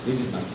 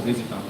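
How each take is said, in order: Both takes have the same delivery.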